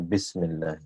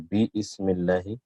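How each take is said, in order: First: The 'I' sound is dropped and the words run together. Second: The words are said separately with a full 'I' sound. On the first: "Instead of that, we say Bismillah" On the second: "So Bi Ismillahi"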